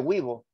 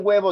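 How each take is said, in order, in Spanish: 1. Se dice con acento influido por el quechua. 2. Se dice con acento español estándar. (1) "dice huevo. Habla en castellano pensando en su lengua materna" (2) "En vez de decir huevo"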